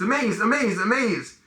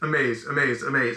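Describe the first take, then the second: First: It is said with lively excitement. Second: It is said flatly, without emotion.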